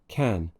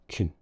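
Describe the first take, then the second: First: The vowel is full and open. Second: The vowel is a reduced schwa.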